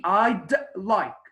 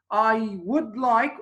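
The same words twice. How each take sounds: First: I'd with a crisp pressed D; clear final D. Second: Said in the usual way. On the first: Shown as a demonstration. Teacher modelling the D in I'd for students. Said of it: "press on pronouncing the D". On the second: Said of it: "very different when you say".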